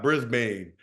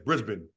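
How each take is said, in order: First: It is said with an American pronunciation. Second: It is said with an Australian pronunciation. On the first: This is how visiting Americans say it. The speaker calls it wrong. "It's not Brisbane" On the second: This is how locals say it. The speaker calls it right. "it's Brisbane"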